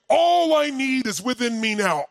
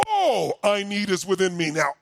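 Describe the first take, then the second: First: Shouting the mantra mid-run; shouted incantation. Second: Said in the usual way. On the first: Retold or imitated. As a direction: proclaim it into the dark like a battle cry. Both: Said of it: "I would shout it".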